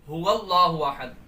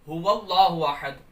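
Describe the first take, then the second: The two takes are said the same way.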